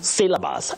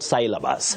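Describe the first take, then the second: First: The first syllable has a short pure vowel. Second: The first syllable has a gliding diphthong vowel. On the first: The speaker calls it right. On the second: The speaker calls it wrong.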